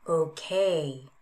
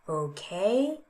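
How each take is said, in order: First: The pitch falls across the word. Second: The pitch rises across the word.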